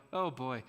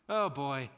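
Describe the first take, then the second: No difference in how they are said.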